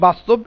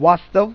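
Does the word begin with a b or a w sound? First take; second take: b; w. First: The word begins with a b sound. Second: The word begins with a w sound. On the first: This is the Bengali form. "বাংলাতে বলি বাস্তব" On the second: This is the Hindi form. "হিন্দিতে বলা হয় ওয়াস্তব"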